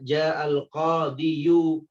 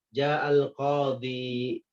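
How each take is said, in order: First: The last word ends with a full 'yu' ending. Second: The last word ends with a plain 'i' sound. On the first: This is the underlying form with the case ending. The speaker calls it wrong. "Harusnya ja'al qadiyu" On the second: The case ending is dropped because it is heavy to say. The speaker calls it right. "maka dibaca hanyalah ja'al qadhi"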